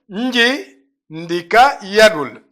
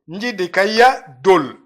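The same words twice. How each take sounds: First: The phrase is said slowly, word by word. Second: The phrase is said quickly, words run together. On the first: The speaker calls it wrong. "c'est quand je vais lentement" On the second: The speaker calls it right. "On va dire nji, ndika, yadul"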